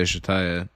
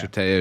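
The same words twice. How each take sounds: First: "Shataya" with an EYE in the middle; alternative pronunciation. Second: "Shataya" with an AY in the middle; alternative pronunciation. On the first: Co-host tries out the brothel owner's name, "Shataya" as shuh-TIE-uh. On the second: Co-host tries out the brothel owner's name, "Shataya" as shuh-TAY-uh. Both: Shown as a demonstration. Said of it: "Yeah, sure".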